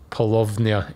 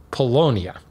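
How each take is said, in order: First: Paulownia with the W said as a V; German V sound in Paulownia, short O; German-style V. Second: Said in the usual way. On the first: Shown as a demonstration. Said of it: "although maybe if you're German". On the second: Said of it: "replace the V with a W".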